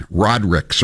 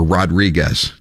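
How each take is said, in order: First: Rodrigues with no separate -ez ending; local pronunciation. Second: Rodriguez with a full -ez last syllable; alternative pronunciation. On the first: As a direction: say Rodrigues the short, anglicised way. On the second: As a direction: say Rodriguez the Spanish way. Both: Shown as a demonstration. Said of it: "depending on how you pronounce it".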